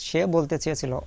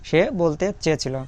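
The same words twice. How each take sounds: The two takes are said the same way.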